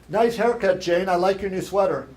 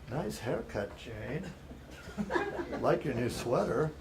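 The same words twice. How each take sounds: First: It is said in a plain, friendly tone. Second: It is said in a leering, creepy voice. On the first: It is a sincere compliment. The speaker calls it right. "it's a compliment" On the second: It is an unwelcome advance. The speaker calls it wrong. "Kind of creepy, raising my kind of the creepy voice"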